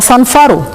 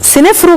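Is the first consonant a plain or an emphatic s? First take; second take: emphatic; plain. First: It starts with a heavy, emphatic s sound. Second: It starts with a plain, light s sound. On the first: The speaker calls it right. "هو صنفره" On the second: The speaker calls it wrong. "بننطقه غلط"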